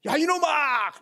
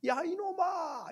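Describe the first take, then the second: First: High, loud scolding yell; loud hilltop cursing; angry shout. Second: High, lighter repeat of a yell; echo. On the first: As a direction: bellow it at the hidden copycat. Child curses at the echo. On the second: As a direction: throw it back as a distant echo. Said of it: "이렇게 들리는 거예요". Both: Retold or imitated.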